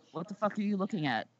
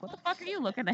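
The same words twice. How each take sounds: First: Said in the usual way. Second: Hostile, pitched much higher; devilish snap. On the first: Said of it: "I probably make myself come off like the fucking devil". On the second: Retold or imitated. Tattooed woman glares back at judgy churchgoers, pitched-up snap. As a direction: bite it out at the starers like a devil. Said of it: "come off like the fucking devil".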